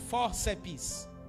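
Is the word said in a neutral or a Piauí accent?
Piauí. It is said in a Piauí regional accent. "vou falar como piauiense"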